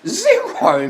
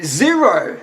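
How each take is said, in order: First: High laughing repeat. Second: Said in the usual way. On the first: Real, not acted. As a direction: laugh the word Zero out high. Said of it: "repeats answer laughing". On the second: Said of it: "answering a question".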